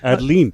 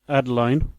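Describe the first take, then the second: First: The last syllable rhymes with leen. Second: The last syllable rhymes with line. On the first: "or it could could be Geraldine, so Adeline" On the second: "you have Adeline, Caroline"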